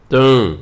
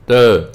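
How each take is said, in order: First: ਤਾਂ said as the plain ta with no nasal, the right way; correct ta. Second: ਤਾਂ said as nasal taan, louder, the wrong way. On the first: The teacher shows students the correct ਤਾਂ pronunciation. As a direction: say ਤਾਂ as a clean ta sound. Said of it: "ਇਸ ਤਰ੍ਹਾਂ ਬੋਲਣਾ". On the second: The teacher shows students the wrong nasal ਤਾਂ, louder. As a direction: say ਤਾਂ with a nasal vowel to show the mistake. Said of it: "ਤਾਂ ਨਹੀਂ ਬੋਲਣਾ". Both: Shown as a demonstration.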